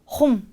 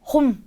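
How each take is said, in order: No difference in how they are said.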